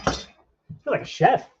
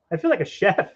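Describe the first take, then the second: First: Drawn out, high and pleased with himself; playful high chef line. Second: Said in the usual way. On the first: Pretend. Cooking for viewers, slow high proud chef boast. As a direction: savour it slowly, like a proud chef.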